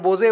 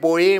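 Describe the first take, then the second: First: The middle consonant is a j sound. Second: The middle consonant is a y sound. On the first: This is how we used to read the name. "आपण बोजे वाचायचो" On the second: This is how the name is said in its home country. "ते बोये म्हणतात"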